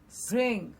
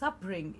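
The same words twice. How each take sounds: First: The s and p join with no vowel. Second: A vowel is inserted between s and p. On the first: The speaker calls it right. "producing the sound all in one go" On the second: The speaker calls it wrong. "there is a vowel sound which is coming in the middle of s and p"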